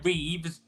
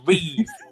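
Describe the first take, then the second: First: The name ends with an s sound. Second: The name ends without an s sound. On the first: The speaker calls it wrong. "don't call it Christopher Reeves" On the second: The speaker calls it right. "it's Reeve, not Reeves"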